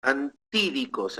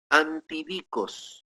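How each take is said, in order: First: "Antídicos" with the accent on TÍ; corrected word stress. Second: "antidikos" slowly, stressed toward the end, on DI; stress on later syllable. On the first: Preacher correcting his Greek for listeners, stress moved to TÍ. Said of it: "con acento en la E". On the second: Preacher first reading the Greek word, stress misplaced late. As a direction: say "antidikos" slowly as anti-DI-kos. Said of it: "Antídicos en realidad, con acento". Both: Shown as a demonstration.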